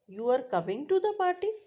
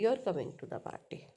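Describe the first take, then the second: First: The pitch rises at the end. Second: The pitch falls at the end. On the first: It asks a question. "So then pitch rises in the end" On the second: It states and confirms information. "The same word use falling pitch"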